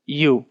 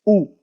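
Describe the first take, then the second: First: U said as English "you"; English letter name. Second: U said as a pure "oo"; Japanese vowel. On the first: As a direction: say U with a y glide, "you". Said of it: "in Japanese is not U". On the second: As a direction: say U without the y, "oo". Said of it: "it is U". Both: Shown as a demonstration.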